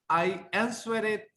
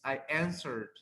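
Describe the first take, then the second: First: The ending is an extra syllable, like 'id'. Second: The ending is a plain d, no extra syllable. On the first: The speaker calls it wrong. "doesn't sound right" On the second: The speaker calls it right. "It's I answered"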